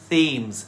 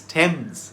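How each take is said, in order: First: The word begins with a 'th' sound. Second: The word begins with a plain 't' sound. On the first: The speaker calls it wrong. "It isn't pronounced Thames" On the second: The speaker calls it right. "it's Thames"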